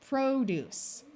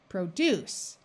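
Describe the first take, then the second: First: The stress is on the first syllable. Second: The stress is on the second syllable. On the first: It means fruits and vegetables. "First syllable is accented" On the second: It means to make. "to make, a verb. The second syllable is accented"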